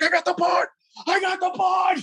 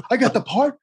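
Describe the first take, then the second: First: Very high excited mock scream; retold joyful scream. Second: High-pitched incredulous question; stunned disbelief. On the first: Actor reliving his news in the studio hallway, screaming. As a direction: re-enact screaming it out, pitch shooting way up. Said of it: "I'm screaming in the hallway". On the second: Retold or imitated. Actor hearing the good news from the show's creator, stunned. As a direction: ask it high, rising at the end. Actor retells learning he got part.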